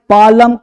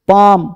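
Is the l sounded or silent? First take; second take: sounded; silent. First: An l sound is heard before the m. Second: No l sound is heard before the m. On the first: The speaker calls it wrong. "नहीं" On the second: The speaker calls it right. "इस सब में एल चुप"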